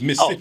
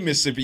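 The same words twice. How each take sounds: First: One syllable is dropped, leaving three syllables. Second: All four syllables of the word are pronounced.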